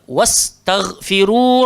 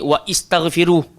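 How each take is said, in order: First: The 'wa' runs straight into 'st' without extra vowel. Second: An 'i' vowel is voiced after 'wa'. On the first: The speaker calls it right. "kita terus masuk sahaja" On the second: The speaker calls it wrong. "dah tak adalah bunyi wa istaghfiru"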